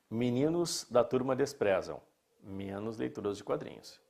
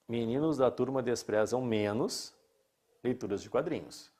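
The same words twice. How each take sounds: First: There is a pause after 'desprezam'. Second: There is no pause after 'desprezam'. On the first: They despise everything except comic reading. "eu posso ler assim" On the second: They despise comic reading less than other reading. "Ou eu posso ler"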